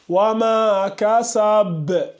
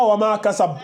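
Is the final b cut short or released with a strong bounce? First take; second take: bounce; cut short. First: The final b is released with a strong bounce. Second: The final b is cut short without a bounce. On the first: The speaker calls it right. "Toujours la grande qalqala là" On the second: The speaker calls it wrong. "C'est pas wama kasab"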